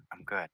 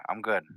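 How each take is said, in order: First: Softer, trailing off, unconvinced; deflated mutter. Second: Said in the usual way. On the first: Acted. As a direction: let it sink, not good at all. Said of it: "And he's not good". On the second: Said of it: "He goes".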